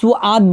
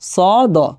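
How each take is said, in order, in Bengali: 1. দীর্ঘ স্বরের আগে একটি 'u' গ্লাইড আসে। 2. দীর্ঘ স্বরটি সরাসরি আসে, কোনো গ্লাইড ছাড়া। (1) "অনেকে সুআদ বলে ফেলি, সুআদ না" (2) "হবে কি সদ"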